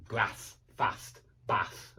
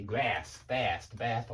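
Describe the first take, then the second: First: Short a in "grass, fast, bath", northern English style; quiet northern-accented word list. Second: American eh-like a in "grass, fast, bath"; American pronunciation. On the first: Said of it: "That's my northern U K English". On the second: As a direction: lower American-style sample words. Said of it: "ah in the U S". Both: Shown as a demonstration.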